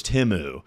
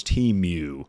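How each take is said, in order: First: Temu said TEM-oo, short first vowel; correct pronunciation. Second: Temu said TEEM-yoo; mistaken pronunciation. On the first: Streamer on learning a brand's name, Temu said TEM-oo. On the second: Streamer admitting an old mistake, Temu said TEEM-yoo. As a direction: say Temu as TEEM-myoo, with a y-glide. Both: Shown as a demonstration. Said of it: "I thought it was Temu".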